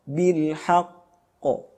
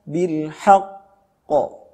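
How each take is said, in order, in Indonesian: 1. Konsonan akhir yang bergema dilepas dengan ringan. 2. Konsonan akhir yang bergema ditekan terlalu keras. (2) "Yang berlebihan"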